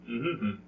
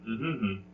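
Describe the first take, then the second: No difference in how they are said.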